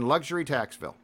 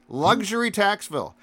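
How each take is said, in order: First: It is said at normal speed. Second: It is said slowly and deliberately.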